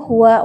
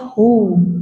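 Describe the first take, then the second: First: The word ends with the full syllable wa. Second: The word ends on a lengthened hu sound. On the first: The speaker calls it wrong. "huwanya dibaca tetap" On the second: The speaker calls it right. "harusnya hu. Hu ya, agak oh, panjang"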